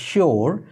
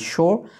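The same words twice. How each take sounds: First: It is said the common Bengali way, 'shi-or'. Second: It is said British style, with no r sound. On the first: The speaker calls it wrong. "বাংলাতে প্রচলিত এই উচ্চারণটা হচ্ছে আমরা বলে থাকি sure অর্থাৎ শিওর কিন্তু হবে না" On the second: The speaker calls it right. "British English follow করে থাকেন তাহলে আপনি বলবেন sure আর এর উচ্চারণটা করবেন না"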